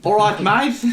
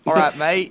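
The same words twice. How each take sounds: First: High-pitched, louder Australian attempt; a hammed-up, muddled Aussie accent. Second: Put-on higher, louder Australian accent. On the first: Guest answering host's request for an Australian, high Australian accent. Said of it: "That sounds like one part Australian". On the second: Podcast host demonstrating the Australian he hoped for, Australian accent. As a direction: call it out in an Aussie accent. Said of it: "like, an Australian".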